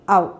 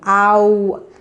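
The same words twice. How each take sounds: First: The vowel sound is held briefly. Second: The vowel sound is drawn out longer. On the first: It is the sound of the letters o u. "It's a shorter sound" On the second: It is the sound of the letters o w. "But here the u should be longer"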